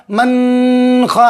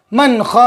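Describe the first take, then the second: First: "मन ख" with the n of मन held long in the nose; wrong nasal hold. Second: Said in the usual way. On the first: Shown as a demonstration. Teacher showing pupils the mistake, "मन ख" with a drawn-out nasal n. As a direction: hum a long, slow nasal n in "मन" before ख. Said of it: "ऐसे नहीं पढ़ेंगे, आवाज़ को नाक में नहीं रोकेंगे". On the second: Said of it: "जल्दी पढ़ देंगे".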